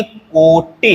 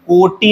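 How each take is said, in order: First: कोटे as a drawn-out 'koo-ti', short ending; correct final vowel. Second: कोटि as higher-pitched 'ko-tee'; wrong final vowel. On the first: Teacher gives the correction, कोटे with short final vowel. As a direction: slowly hold the o, clip the end of कोटे. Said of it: "है". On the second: Teacher rejects a common error, कोटि with long final ee. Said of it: "नहीं है". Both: Shown as a demonstration.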